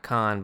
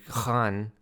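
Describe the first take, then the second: First: The name is said with an anglicized pronunciation. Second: The name is said with its native pronunciation. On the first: The speaker calls it wrong. "not Khan" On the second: The speaker calls it right.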